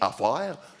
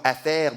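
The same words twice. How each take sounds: First: It is said with a Québécois French accent. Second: It is said with a standard French accent. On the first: "l'accent québécois, c'est juste prononcé différemment" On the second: "le mot affaire"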